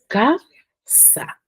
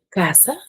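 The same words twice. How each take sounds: First: "ca-sa" split slowly, CA pushed up and SA dropped; slow syllable-by-syllable "ca-sa" with stress on CA; stressed first syllable. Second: Said in the usual way. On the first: Shown as a demonstration. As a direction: break "ca-sa" in two, leaning on CA. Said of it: "yo lo pronuncio". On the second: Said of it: "yo lo pronuncio ca-sa".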